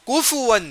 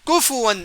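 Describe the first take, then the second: The two takes are said the same way.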